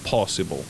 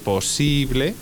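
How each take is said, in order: First: The stress is on the first syllable. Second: The stress is on the second syllable. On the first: "se pasa el acento al principio" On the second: "En vez de posible"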